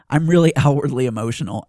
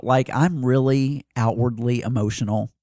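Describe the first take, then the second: First: 'really' said through a laugh. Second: Said in the usual way. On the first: Real, not acted. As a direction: laugh as you repeat it. Repeats it with a laugh.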